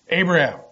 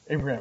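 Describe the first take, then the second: First: The name is said loudly and urgently. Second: The name is said quietly and calmly.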